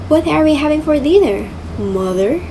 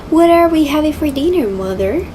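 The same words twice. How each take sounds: Both takes have the same delivery.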